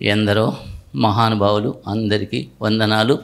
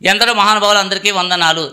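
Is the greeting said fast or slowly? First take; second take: slowly; fast. First: The greeting is said slowly and unhurriedly. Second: The greeting is said quickly and hurriedly. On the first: The speaker calls it right. "మెల్లగా" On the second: The speaker calls it wrong. "ఎందుకంత తొందర నీకు?"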